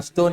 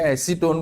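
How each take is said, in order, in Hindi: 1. यह शब्द दबाकर बोला जाता है, इसलिए 'a stone' जैसा सुनाई देता है। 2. acetone के तीनों अक्षर साफ़ बोले जाते हैं।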